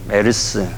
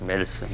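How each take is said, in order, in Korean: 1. '메르스'는 세 음절로 발음해요. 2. '메르스'는 두 음절로 발음해요.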